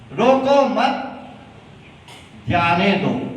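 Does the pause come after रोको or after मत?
after मत. The pause comes right after मत.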